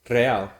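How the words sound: The R sound is pronounced fully. "they say real"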